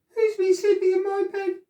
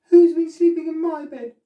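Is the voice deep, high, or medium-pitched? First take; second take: high; medium. First: It is said in a teeny wee voice. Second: It is said in a middle-sized voice.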